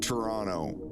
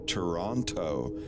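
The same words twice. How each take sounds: First: The second T is flattened. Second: The second T is crisp. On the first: This is how an American says it. The speaker calls it wrong. "when I first came here, I said Toronto" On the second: This is how Canadians are said to say it. The speaker calls it right. "Canadians say it like Toronto. You don't flatten the T"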